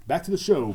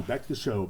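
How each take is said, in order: First: Higher, louder radio-style call back to the show; announcer call. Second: Said in the usual way. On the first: Real, not acted. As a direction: announce the return to the show with a lift.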